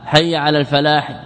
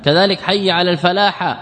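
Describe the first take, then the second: First: الفلاح ending in -hi; the correct alfalahi; haa with i. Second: الفلاح ending in -ha; the faulty alfalaha; haa with a. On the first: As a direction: end الفلاح on an i. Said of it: "هذا لا يحيل المعنى". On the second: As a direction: end الفلاح on an a. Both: Shown as a demonstration.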